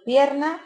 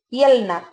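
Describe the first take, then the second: First: An r sound comes before the n. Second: An l sound comes before the n. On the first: "por pierna" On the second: "La confusión mutua de R y L. Pues dicen pielna"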